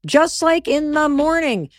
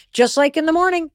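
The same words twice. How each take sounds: First: "Just like in the morning" slow and drawn out, weight on "like"; slow emphatic repeat. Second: Said in the usual way. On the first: Real, not acted. Host driving the comparison home to listeners, slow emphatic repeat. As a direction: stretch out "Just like in the morning" word by word.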